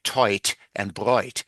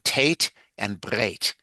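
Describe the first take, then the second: First: The vowels are said as oi. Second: It is said with a northern Litvish accent.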